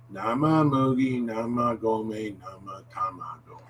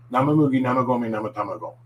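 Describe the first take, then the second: First: Measured, connected tongue twister; medium speed. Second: Quick, run-together tongue twister; brisk speed demo in one go; pretty fast. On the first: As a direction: say it steadily, stretching the vowels a little. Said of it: "say it at medium speed". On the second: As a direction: rattle it off rapidly without a slip. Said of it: "at a pretty fast speed". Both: Shown as a demonstration.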